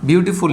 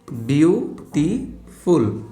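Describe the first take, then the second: First: Said in the usual way. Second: বিউটিফুল stretched very slowly, syllable by syllable; syllables drawn out. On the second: Shown as a demonstration. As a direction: say বিউটিফুল slowly, pulling each syllable apart for students. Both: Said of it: "এখানে কয়টা syllable দেখো?".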